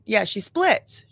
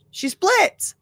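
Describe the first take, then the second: First: Said in the usual way. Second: High echo. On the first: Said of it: "What do you mean you turn into another person". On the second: Shown as a demonstration.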